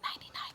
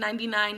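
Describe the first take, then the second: First: It is spoken in a whisper. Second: It is spoken in a normal voice. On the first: This is the whispered version of the test. "You whisper, it's literally whispered bronchophony" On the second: This is the test called bronchophony. "you say it normal"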